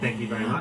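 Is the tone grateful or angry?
angry. It sounds angry and aggressive.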